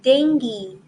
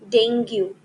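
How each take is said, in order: First: The word ends with a 'gi' sound. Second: The word does not end with a 'gi' sound. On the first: The speaker calls it right. "rather it is dengue. Sound is gi" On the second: The speaker calls it wrong. "This is not dengue"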